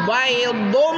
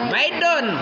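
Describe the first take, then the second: First: The d sound is heavy and emphatic. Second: The d sound is light and plain. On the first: The speaker calls it right. "Bedakan dal dengan do. Do" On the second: The speaker calls it wrong. "Kalau dibaca baydun itu dal"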